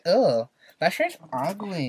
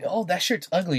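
First: It is said in a Valley girl voice. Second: It is said in a normal voice.

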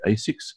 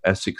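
First: The name is said the North American way. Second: The name is said the Australian way.

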